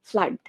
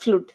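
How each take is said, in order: First: The vowel is a short 'uh' sound. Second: The vowel is a long 'oo' sound. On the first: The speaker calls it right. "ফ্লাড, not ফ্লুড" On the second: The speaker calls it wrong. "Not ফ্লুড"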